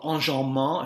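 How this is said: The word is pronounced the French way.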